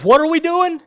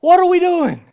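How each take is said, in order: First: Higher and louder, frustrated; a frustrated believer calls out to God, in an exasperated loud cry. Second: Even higher and louder, near shouting; the same believer pleads with God again, in a near shout; louder exasperated cry. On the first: Loud exasperated cry. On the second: Higher, louder near shout. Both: Retold or imitated.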